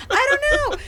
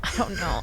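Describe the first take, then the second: First: Much higher, louder, laughing burst; laughing exclamation. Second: Said in the usual way. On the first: Real, not acted. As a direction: shout it out through laughter. Repeated, now laughing high and loud.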